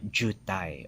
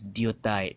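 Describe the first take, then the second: First: The word begins with a j sound. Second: The word begins with a d sound. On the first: The speaker calls it wrong. "sounds like a j" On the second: The speaker calls it right. "it's actually a dia"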